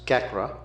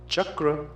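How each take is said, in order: First: The word begins with a k sound. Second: The word begins with a ch sound. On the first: The speaker calls it wrong. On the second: The speaker calls it right.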